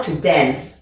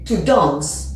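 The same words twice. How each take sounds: First: It is said in an American accent. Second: It is said in a British accent. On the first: "en américain, to dance" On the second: "En anglais, ici, c'est to dance"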